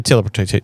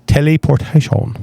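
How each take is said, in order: First: Said in the usual way. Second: "Teleportation" stretched out syllable by syllable; playfully over-pronounce every syllable of "Teleportation"; over-enunciated. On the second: Shown as a demonstration. Guest repeating his superpower answer, over-enunciated.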